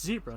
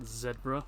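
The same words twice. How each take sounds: First: Zebra is said with an American accent. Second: Zebra is said with a British accent. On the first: The speaker calls it right. "You're American. Pronounce it correctly. it's zebra" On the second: The speaker calls it wrong. "not zebra. Well, you're not British"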